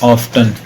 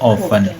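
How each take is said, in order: First: The t sound is pronounced in the middle. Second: The t sound is left silent in the middle. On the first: "बिल्कुल सही है ऑफ्टन" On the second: "टी silence कर देंगे इसको"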